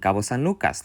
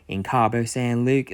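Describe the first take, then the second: First: The name is said with a native Spanish accent. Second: The name is said with an American English accent. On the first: The caller speaks Spanish. "they pronounced the cities perfectly" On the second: The caller does not speak Spanish. "very clearly American English speakers don't speak Spanish at all"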